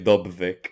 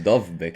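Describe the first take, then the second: First: The name is said with b before v. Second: The name is said with v before b. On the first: This is how the other host habitually says it. The speaker calls it wrong. "You always say Dobvik" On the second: This matches the name's real spelling. The speaker calls it right. "it's Dovvik, eh? D O V B Y K"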